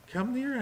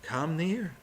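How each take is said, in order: First: Pleading higher. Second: Said in the usual way. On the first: Acted. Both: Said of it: "he says".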